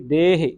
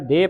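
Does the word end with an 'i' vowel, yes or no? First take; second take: yes; no. First: The word ends with a final 'i' vowel. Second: The word ends without a final 'i' vowel. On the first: The speaker calls it right. "ਹਾਹੇ ਨੂੰ ਸਿਆਰੀ ਲੱਗੀ ਜਿਹੜੀ, ਇਹ ਉਚਾਰਨ ਹੋਵੇਗੀ" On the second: The speaker calls it wrong. "ਸੰਗਤਾਂ ਪੜ ਜਾਂਦੀਆਂ ਦੇਹ"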